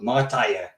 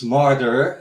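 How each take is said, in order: First: It is said in a local Dutch dialect. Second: It is said with an English pronunciation. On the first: "we talk with a little accent. We call, they call it Martije" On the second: "it's martyr in uh, uh, in uh, English"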